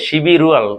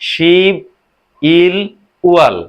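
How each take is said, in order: First: The syllables run together with linked sounds. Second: Each syllable is said separately.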